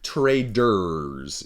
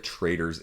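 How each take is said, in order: First: The middle consonant is a clearly enunciated d. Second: The middle consonant is slurred, sounding like traitors. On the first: The speaker calls it right. "I'll be more enunciated of my pronunciation" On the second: The speaker calls it wrong. "I know my Michigan accent is horrible at times"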